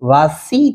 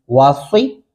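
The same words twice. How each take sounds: First: वासी with thin, ordinary "see"; plain-S वासी, the error; wrong plain Seen. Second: वासी with heavy, rounded "swee"; emphatic-S model of वासी; rounded Saad. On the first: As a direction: say वासी with unrounded S, as a mistake. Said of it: "यहाँ पे आप सीन लगा रहे हैं". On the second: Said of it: "होंठों की शक्ल गोल". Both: Shown as a demonstration.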